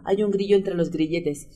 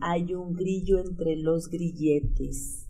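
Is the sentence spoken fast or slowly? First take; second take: fast; slowly. First: The sentence is spoken at a fast pace. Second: The sentence is spoken at a slow pace. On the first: "Ahora más rápido" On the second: "más lento hasta que lo aprendamos"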